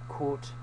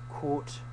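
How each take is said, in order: Both takes have the same delivery.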